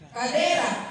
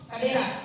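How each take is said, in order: First: The vowel before the last syllable is long. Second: The vowel before the last syllable is short. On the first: "dia mengenal vokal panjang" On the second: "tidak mengenal vokal panjang"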